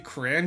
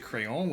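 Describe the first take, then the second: First: It is said as the short form 'cran'. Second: It is said as the French word 'crayon'. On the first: It means a colored crayon. "I specifically say Cran" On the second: It means a pencil. "otherwise I'm going to say crayon, which is pencil in French"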